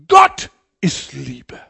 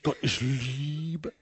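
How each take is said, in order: First: The stress is on the word Gott. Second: The stress is on the word Liebe.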